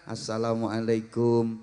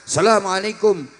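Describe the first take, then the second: First: Low, soft, slow respectful greeting; bow and greet the teacher softly; humble bowing greeting. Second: Greeting on a raised pitch. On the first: Pupil bowing to a teacher, soft humble greeting. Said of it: "sambil membungkukkan badan". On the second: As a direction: lift the voice high as you greet. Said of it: "pakai nada tinggi". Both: Shown as a demonstration.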